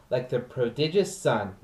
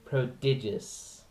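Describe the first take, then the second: First: Said in the usual way. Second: Prodigious said slowly and carefully, each syllable clear; slow down on prodigious, pro-di-gious; careful word. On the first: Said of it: "I stumble on that word". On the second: Shown as a demonstration. Actor fixing a word he stumbles on, says prodigious slowly. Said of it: "I know the word prodi-, prodigious".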